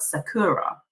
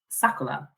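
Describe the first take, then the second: First: The middle consonant is an English r. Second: The middle consonant sounds close to an l. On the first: "in English is spelt Sakura" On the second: "the real pronunciation is Sakura"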